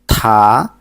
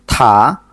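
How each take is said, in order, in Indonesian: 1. Konsonan itu disertai hembusan napas yang kuat. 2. Konsonan itu disertai hembusan napas yang kuat.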